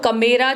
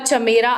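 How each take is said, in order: First: The name begins with a 'k' sound. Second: The name begins with a 'ch' sound. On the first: This is how the speaker personally says it. "मैं तो कमेरा करती हूँ" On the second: This is how others usually say it. "वैसे चमेरा करते हैं इसको I think"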